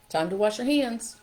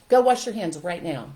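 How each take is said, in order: First: Friendly, light invitation to wash up; gentle reminder. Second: Louder, barked order to wash hands; harsh command. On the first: Shown as a demonstration. Parent inviting a kid to wash hands, gently. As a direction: make it sound like an easy routine. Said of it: "This is simple". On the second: Retold or imitated. Parent ordering a kid to wash hands, harsh. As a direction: snap the order at the child. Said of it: "Okay, give me an example".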